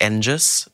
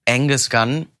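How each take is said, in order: First: "Angus" with a rising tune, slowly, as in the radio play; old pronunciation. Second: "Angus" slowly, the way it is said now; corrected pronunciation. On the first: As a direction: say "Angus" the way the radio play does, as the rejected version. ("Angus" langsam, steigend, wie im Hörspiel) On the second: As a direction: say "Angus Gunn" deliberately and slowly. (langsam betont: "Angus Gunn") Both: Shown as a demonstration. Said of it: "und nicht Angus".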